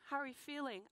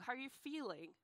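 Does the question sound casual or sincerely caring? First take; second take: casual; sincerely caring. First: It is asked as a casual polite formality. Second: It is asked with sincere, caring interest.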